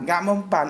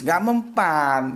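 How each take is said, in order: First: Said in the usual way. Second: Drawn out, each word weighed slowly; slow emphatic denial. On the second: Shown as a demonstration. Dismissing a psychological attack, slow and emphatic. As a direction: stretch it out to make the point land.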